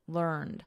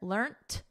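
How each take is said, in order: First: The word ends with a soft d sound. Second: The word ends with a soft t sound. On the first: This is the form preferred in American English. "in American, learned with a soft D" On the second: This is the form preferred in British English. "notice we have a soft T here"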